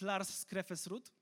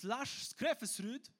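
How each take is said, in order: First: The name is pronounced the Polish way. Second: The name is pronounced the Norwegian way. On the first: "ale może spolszmy" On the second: "Pytałem wczoraj żonę o wymowę"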